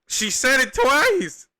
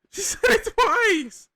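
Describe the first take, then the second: First: Slow, much higher and louder, stretched out in disbelief; can't believe she said it twice; stunned disbelief. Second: Even higher squeal of disbelief with a laugh breaking in. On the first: Reacting to clip, incredulous. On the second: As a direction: crack up while repeating it slowly. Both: Real, not acted.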